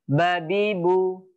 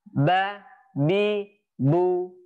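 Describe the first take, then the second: First: The syllables run together without pauses. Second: Each syllable is separated by a short pause. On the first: The speaker calls it right. "anak-anak bisa membaca langsung" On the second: The speaker calls it wrong. "lebih baik dipotong-potong atau diputus"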